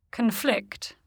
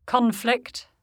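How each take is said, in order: First: "conflict" as a verb, c'n-FLICT; weak first vowel in "conflict", weight on FLICT; stress on second syllable. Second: "conflict" as a noun, CON-flict with full vowel; stress on first syllable. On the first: Teacher shows the verb, "conflict" stressed on FLICT. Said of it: "stressed on the stem". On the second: Teacher shows the noun, "conflict" stressed on CON. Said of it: "stressed on the prefix". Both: Shown as a demonstration.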